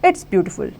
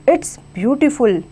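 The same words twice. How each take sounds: First: It is said in a plain, matter-of-fact way. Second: It is said with excited, admiring emphasis. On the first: It is a simple statement. "Simple" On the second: The speaker is praising something they really like. "Exclamation mark लगाया क्योंकि हमें वो चीज़ बहुत अच्छी लगी"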